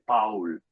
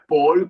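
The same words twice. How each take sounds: First: The name is said the German way. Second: The name is said in a non-German way. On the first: The speaker calls it right. "en alemán se dice Paul" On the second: The speaker calls it wrong. "no es Paul como dicen algunos"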